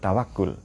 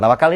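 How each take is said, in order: First: The last syllable is said with a 'u' vowel. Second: The last syllable is said with an 'a' vowel. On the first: This is the original Arabic form of the word. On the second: This is the local everyday form of the word. "Tawakal ini bahasa kita ya"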